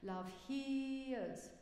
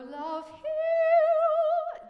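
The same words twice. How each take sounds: First: The vowel in hears stays steady, then schwa. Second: The vowel in hears glides through several vowels. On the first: The speaker calls it right. "I only need to hear the main vowel, love hears, and then the schwa at the end" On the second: The speaker calls it wrong. "You go love hears. It's like I hear three different vowels in that"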